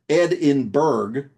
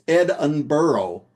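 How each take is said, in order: First: The name ends with a hard 'burg' sound. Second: The name ends with a soft 'burro' sound. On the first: The name means Ed in a mountain. The speaker calls it wrong. "not pronounced Edinburgh from the Saxon phrase meaning Ed in a mountain" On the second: The name means Ed on a donkey. The speaker calls it right. "It is pronounced Edinburgh, literally Ed on a donkey"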